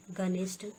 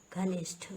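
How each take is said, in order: First: घनिष्ठ without aspiration, ganist; wrong pronunciation. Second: घनिष्ठ with aspirated gh and th; correct pronunciation. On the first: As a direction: drop both puffs in घनिष्ठ. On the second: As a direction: puff both gh and th in घनिष्ठ. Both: Shown as a demonstration. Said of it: "अल्प प्राण और महाप्राण".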